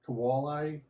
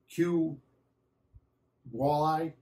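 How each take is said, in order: First: The first letter is said as a k sound. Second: The first letter is said as its name, cue. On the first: "I always call it Q like a K" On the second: "some people pronounce it uh, Q as as a Q"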